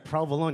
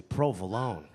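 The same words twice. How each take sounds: First: Unsexy, everyday way of saying it; mock disgusting pronunciation. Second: Low, sultry crooning pronunciation; sexy. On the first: Comic mimicking the audience's way, mock unappealing. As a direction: say it with no seduction at all. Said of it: "You guys say it". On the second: Shown as a demonstration. Comic showing off how he says it, sexy. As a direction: say it low and seductive. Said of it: "it's sexy".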